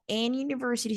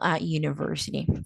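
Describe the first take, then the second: First: The article is said with an n sound. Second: The article is said without an n sound. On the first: The speaker calls it wrong. "no digo en university" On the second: The speaker calls it right. "sino a university"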